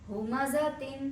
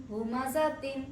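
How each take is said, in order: No difference in how they are said.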